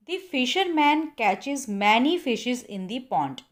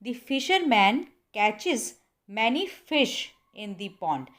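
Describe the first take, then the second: First: Slow wrong example. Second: "fish" said slowly and firmly; slow correct model, "fish" stressed. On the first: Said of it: "ये sentence बिल्कुल गलत है". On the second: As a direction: punch the word "fish". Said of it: "आपने बोलना है". ("fish" पर ज़ोर देकर बोलें) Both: Shown as a demonstration.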